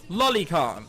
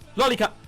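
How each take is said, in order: First: The name is said at a normal pace. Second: The name is said very fast, run together.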